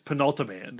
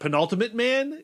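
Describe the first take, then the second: First: The name is said as one blended word. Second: The name is said as penultimate plus man. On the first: The speaker calls it right. "It's Penultiman" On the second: The speaker calls it wrong. "So it's not Penultimate Man"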